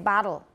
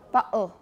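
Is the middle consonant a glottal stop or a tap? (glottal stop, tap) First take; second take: tap; glottal stop. First: The middle consonant is a quick tap. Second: The middle consonant is a glottal stop. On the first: "I use a tap. I say bottle" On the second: "how would a Cockney speaker say bottle?"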